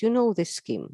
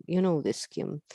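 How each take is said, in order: First: "know" pushed up high and leaned on; stress on know. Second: Said in the usual way. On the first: Shown as a demonstration. Lecturer reminding doctors they know this scheme, "know" stressed high. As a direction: hit the word "know" hard, rising above the rest.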